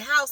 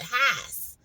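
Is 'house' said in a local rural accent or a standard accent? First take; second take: standard accent; local rural accent. First: The word is said in a standard accent. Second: The word is said in a local rural accent. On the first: "they say house" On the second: "like house"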